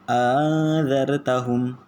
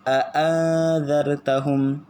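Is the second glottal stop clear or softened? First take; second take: softened; clear. First: The second glottal stop is softened and glided. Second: The second glottal stop is fully and clearly pronounced.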